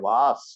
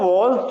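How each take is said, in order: First: It is said with an open 'ah' and 's'. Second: It is said with a short 'o' and 'z'. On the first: The speaker calls it wrong. "છોકરાઓ પાસે વંચાવા જઈએ તો વાસ વાંચે" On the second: The speaker calls it right. "ત્યારે માંડ વોઝ સુધી લાવી શકીએ"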